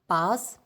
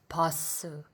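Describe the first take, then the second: First: The word ends on a bare s sound. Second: A short vowel follows the final s sound. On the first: "a consonant, for example, this S, can never stand alone" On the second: "we add a vowel, usually U or U, to make it easier to pronounce"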